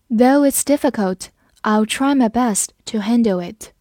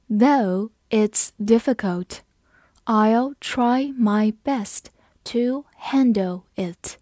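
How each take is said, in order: First: Said in the usual way. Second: Slow, phrase by phrase, words stretched; slow read. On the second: Shown as a demonstration. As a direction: read slowly in chunks for learners. (分句慢速朗读) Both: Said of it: "我们慢慢来读".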